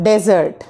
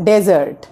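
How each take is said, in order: Both takes have the same delivery.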